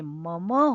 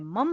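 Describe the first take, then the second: First: The word ends with a short final vowel. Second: The word ends on a bare m consonant. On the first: The speaker calls it right. "षष्ठी के एक वचन में मम होता है" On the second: The speaker calls it wrong. "मम नहीं होता, म हलंत नहीं होता"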